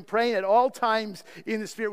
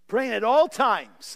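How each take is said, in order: First: Said in the usual way. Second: "all times" drawn out slowly and lifted higher; emphatic stress. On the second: Shown as a demonstration. Preacher re-reading the verse to drive home "all times", emphatically. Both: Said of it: "this emphasis".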